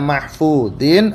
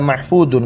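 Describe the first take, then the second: First: The final syllable has an i vowel. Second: The final syllable has a u vowel. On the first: "mahfudin dha-nya di kasratain" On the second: "ada yang di dhammatain ya"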